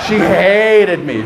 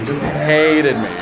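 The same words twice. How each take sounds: First: Hated slowed and louder; stress on hated. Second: Hated drawn out with a laugh; stress on hated. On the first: Comedian repeating how much she hated him, hated stretched. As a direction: lean on hated. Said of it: "stressed repeat". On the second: Comedian repeating the point, hated drawn out. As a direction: stretch hated. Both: Shown as a demonstration.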